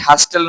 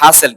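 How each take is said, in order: First: The t sound is pronounced. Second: The t sound is silent. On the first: The speaker calls it wrong. "হাস্টেল not" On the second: The speaker calls it right. "টি silent থাকবে"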